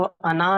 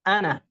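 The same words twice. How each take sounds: First: अना read as "anā" with the alif sounded long; the incorrect take, where अना stretches its final alif; wrong reading. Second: अना said short as "ana", the alif silent; the right take, अना with a clipped short final vowel; correct reading. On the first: Teacher to students, showing the wrong way to read अना. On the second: Teacher to students, showing the correct reading of अना. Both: Shown as a demonstration. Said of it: "इसको अना नहीं पढ़ेंगे बल्कि".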